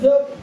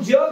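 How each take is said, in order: First: The first consonant is plain dental, without y-glide. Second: The first consonant is palatal with a y-glide. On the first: It means to live. "अनियुक्त उच्चार होतो" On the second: It means the world. "यने युक्त येतो"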